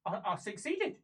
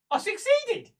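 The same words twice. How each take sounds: First: Hesitant, rising disbelief; dawning realisation. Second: High, loud cry of triumph; triumphant. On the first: Prisoner just told her target is dead, hesitant realisation. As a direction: stumble into it as it sinks in. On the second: Prisoner realising her mission worked, loud triumph. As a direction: burst out with it, pitched right up. Celebrates the target's death. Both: Acted.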